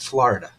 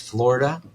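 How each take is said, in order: First: The first vowel is not an O sound. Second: The first vowel is a clear O sound. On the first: The speaker calls it wrong. "It's not Florida" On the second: The speaker calls it right. "It's Florida with an O"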